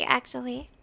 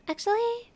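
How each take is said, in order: First: Said in the usual way. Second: "Actually?" rising high as a doubtful question; "Actually?" rising and surprised; questioning tune. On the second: Shown as a demonstration. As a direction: ask "Actually?" in disbelief, pitch sweeping up.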